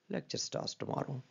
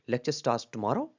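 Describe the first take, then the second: First: Much softer and slow, "lecture" stressed and the tune falling away; soft falling take. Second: "tomorrow" lifted up at the end like a question; rising question tune. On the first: Teacher showing a quiet, slow falling reading. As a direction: drop to near a murmur with a falling end. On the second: Teacher showing how a rise on "tomorrow" turns it into a question. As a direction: let "tomorrow" climb as if asking. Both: Shown as a demonstration. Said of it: "इन चारों में".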